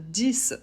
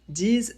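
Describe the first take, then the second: First: The word ends with a clear s sound. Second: The word ends with a z sound. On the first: The number stands alone, as when counting. "si le chiffre est isolé" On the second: A word starting with a vowel follows. "s'il est suivi d'un mot qui commence par une voyelle pour faire la liaison"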